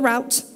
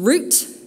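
First: The vowel sounds like 'ow' in out. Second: The vowel sounds like 'oo' in boot. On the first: The speaker calls it wrong. "not the route" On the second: The speaker calls it right. "We are assuming the correct pronunciation of the word root"

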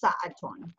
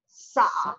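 First: The word ends with an added 'tun' sound. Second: The word ends on a plain 'a' vowel. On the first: This is the formal standard grammatical form. "in modern standard Arabic with proper grammar, it's pronounced sa'atun" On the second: This is the everyday dialect form. "Or you can pronounce it sa'a. ... in regular dialect, you'd say sa'a"

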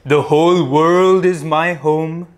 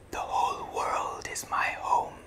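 First: The voice is loud and powerful. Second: The voice is a whisper. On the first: "loudly first, powerfully first" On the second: "Now in a whisper"

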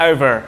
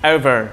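The two takes are said the same way.

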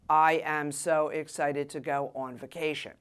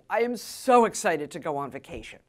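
First: The voice stays flat, with little pitch change. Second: The voice is lively, with much pitch change. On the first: The speaker calls it wrong. "I wouldn't say" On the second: The speaker calls it right. "I would say"

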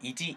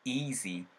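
First: The first vowel is short and clipped. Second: The first vowel is slightly lengthened. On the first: The speaker calls it wrong. "이지가 아니고" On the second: The speaker calls it right. "살짝 늘려주는 사운드를 살짝 만들어주세요"

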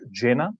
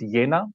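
First: The word begins with a J sound. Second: The word begins with a Y sound. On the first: The speaker calls it wrong. "not Jena" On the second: The speaker calls it right. "I called it Jena, ... as in the word yeah"

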